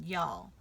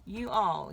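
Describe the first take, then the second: First: "y'all" run together as one syllable; southern contraction. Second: "You all" as two separate words; uncontracted form. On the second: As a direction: split it cleanly into "You all". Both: Shown as a demonstration. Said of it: "I said y'all".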